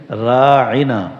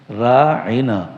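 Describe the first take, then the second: Both takes have the same delivery.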